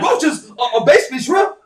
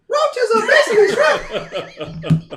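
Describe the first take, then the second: First: It is said in his normal voice. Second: It is said in a put-on voice.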